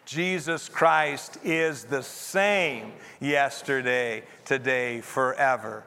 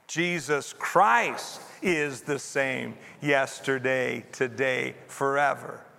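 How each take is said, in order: First: The stress is on the word same. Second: The stress is on the word Christ.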